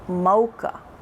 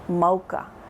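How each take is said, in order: Both takes have the same delivery.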